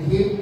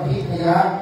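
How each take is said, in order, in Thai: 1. คำนี้ลงท้ายด้วยพยัญชนะปิดท้าย 2. คำนี้มีพยางค์ 'ya' เพิ่มท้ายคำ (1) "ถ้าเป็นไทยใส่ไม้พันธุ์ฟาดประกันเข้าไป" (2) "ถ้าบาลีอ่านว่า"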